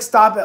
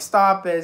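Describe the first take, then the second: First: It is said in a light, laughing tone. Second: It is said in a sad, distressed tone. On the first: It is playful teasing. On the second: Something is genuinely going wrong. "it turned to like a sad"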